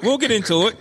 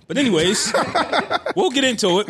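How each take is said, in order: First: Said in the usual way. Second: Laughing through the words. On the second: Real, not acted. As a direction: chuckle it out, pitch up. Laughing on lines.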